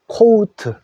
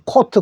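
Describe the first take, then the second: First: The vowel glides from o to u. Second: The vowel is a plain, short o sound. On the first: This is the English pronunciation. "영어로는 요 소리를 오우로 내 주십시오" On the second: This is how Korean speakers usually say it. "우리는 그냥 코트 코트라 하는데"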